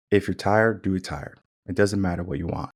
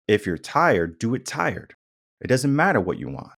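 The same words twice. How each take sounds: First: Spice way. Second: Gentler, lilting coaxing tone; sugar way. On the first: Coach giving tough advice the spice way, firmly. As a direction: say it evenly, no lilt, dropping away at the ends. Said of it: "then there's a spice way". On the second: Coach giving tough advice the sugar way, sweetly. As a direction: sweeten it, with pitch lifting as you go. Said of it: "there's a sugar way and then there's a spice way". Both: Shown as a demonstration.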